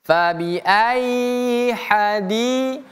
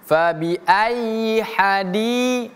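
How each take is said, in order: No difference in how they are said.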